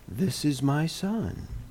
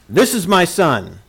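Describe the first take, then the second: First: It is said softly and gently. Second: It is said as a loud, stern rebuke.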